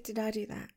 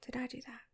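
First: Said in the usual way. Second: Teasing whisper. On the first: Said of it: "I said". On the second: Acted. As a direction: whisper the question softly. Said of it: "I said, did I do that?".

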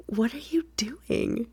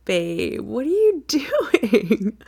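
First: Hushed teasing question; whispered. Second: Slow, high, laughing disbelief; amused surprise. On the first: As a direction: whisper it slowly. Repeats her question softly. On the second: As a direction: stretch it out through laughter. Surprised to find him. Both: Acted.

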